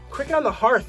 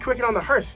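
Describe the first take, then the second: First: The vowel in hearth sounds like in heart. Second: The vowel in hearth sounds like in hurt. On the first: It sounds dangerous and aggressive. The speaker calls it wrong. "sounds like dangerous and like aggressive" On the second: It sounds fluent and natural. The speaker calls it right. "because it's more fluent to me"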